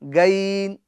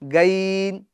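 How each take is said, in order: The two takes are said the same way.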